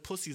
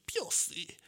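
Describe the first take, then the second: First: Said in the usual way. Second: Slow, warped robotic Pussy; mock autotuned word. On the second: Shown as a demonstration. Showing the producer the autotuned Pussy he wants, slowed and warped. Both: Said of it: "so ein bisschen so autotune".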